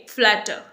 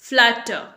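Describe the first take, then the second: Both takes have the same delivery.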